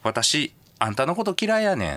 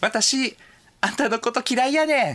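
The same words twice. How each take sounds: First: It is said in an unpleasant, cold tone. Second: It is said in a soft, friendly tone.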